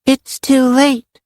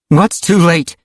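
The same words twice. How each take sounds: First: Put-on high, slow little-girl voice; simply stated. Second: Higher, demanding question. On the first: Little girl Karen tells the arriving friends, simply. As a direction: say it simply, as a child. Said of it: "she said simply". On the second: Rachel questions the little girl, demanding. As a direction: demand an answer. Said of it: "Rachel demanded". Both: A narrator's reading.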